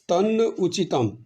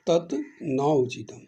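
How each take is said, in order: First: The first word ends in an n sound. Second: The first word ends in a t sound.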